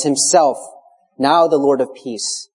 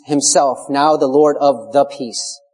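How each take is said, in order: First: Himself placed first and hit firmly, then now the Lord of peace said slowly; stress on Himself. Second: The in the peace marked clearly, the whole line said slowly; stress on the peace. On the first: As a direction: lean hard on Himself, then slow down. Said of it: "an emphatic and intensive force". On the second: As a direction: bring out the little word the before peace. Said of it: "there's a definite article". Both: Shown as a demonstration.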